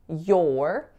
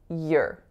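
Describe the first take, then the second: First: The word is said with its full vowel. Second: The word is said with a weak, reduced vowel. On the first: "there's no word to say your" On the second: "We can reduce that and just make it sound like your"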